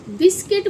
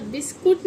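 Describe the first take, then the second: First: बिस्किट ending in "kit"; correct pronunciation. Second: बिस्कुट ending in "kut"; wrong pronunciation. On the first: Teacher instructing children from today on, correct pronunciation. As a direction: say बिस्किट with short i in both syllables. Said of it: "बिस्किट बोलना". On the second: Teacher banning the old way from today, mispronounced. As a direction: say बिस्कुट with short u in the second syllable. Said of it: "आज के बाद बिस्कुट नहीं". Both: Shown as a demonstration.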